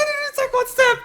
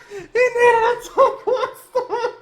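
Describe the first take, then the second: First: Very high, cracking exclamation; shrill outraged cry; high disbelieving shout. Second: Very high, slow, dragged out through laughing tears; despairing slow laugh-cry; laugh-sobbing. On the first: Enemy didn't move, outrage. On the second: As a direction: wail it, half laughing half crying. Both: Real, not acted.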